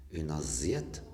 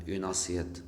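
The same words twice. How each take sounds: First: "assiette" mispronounced with Z for the double S; S voiced as Z. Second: "assiette" with a voiceless S in the middle; correct S sound. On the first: Teacher showing the form that doesn't exist, "assiette" with a Z. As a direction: say "assiette" as if spelt "aziette". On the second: Teacher showing the double-S word, "assiette" with a voiceless S. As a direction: keep a clear S, not Z, inside "assiette". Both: Shown as a demonstration. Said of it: "au lieu de dire".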